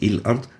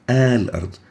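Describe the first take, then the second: First: The word begins with an i vowel. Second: The word begins with an a vowel. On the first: The speaker calls it wrong. "or il-ard" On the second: The speaker calls it right. "it will always be with fatha. We say a"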